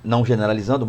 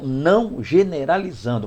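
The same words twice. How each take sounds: First: It is said at a normal pace. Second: It is said slowly and deliberately.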